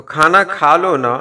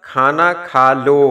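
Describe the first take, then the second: First: A gentle coaxing please to eat; affectionate request. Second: Said in the usual way. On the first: Shown as a demonstration. Teacher showing how a loving request to eat sounds, affectionate. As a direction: coax them lovingly with the na. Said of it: "बहुत प्यार से जब कुछ कहना हो". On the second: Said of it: "मतलब".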